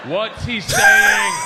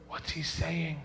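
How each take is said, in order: First: Very high, drawn-out yell; insistent shout. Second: Quiet aside. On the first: Traveler pressing the stranger for a translation, slow high shout. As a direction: shout each word slowly, hammed up. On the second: Traveler asking a stranger about the shouting man, quiet and discreet. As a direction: ask it under your voice. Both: Acted.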